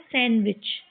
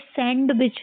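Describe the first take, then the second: First: The d sound is silent. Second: The d sound is pronounced. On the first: The speaker calls it right. "डी को silent करके इसको सैंडविच, ये सही कैसे पढ़ते हैं" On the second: The speaker calls it wrong. "ये सैंडविच नहीं होता है"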